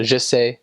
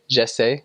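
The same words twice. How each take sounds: First: "je sais" with a neutral "zhuh" first vowel; French "I know". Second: "je sais" with an open "zheh" first vowel; French "I try". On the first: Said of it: "I know". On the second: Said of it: "I try". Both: Shown as a demonstration.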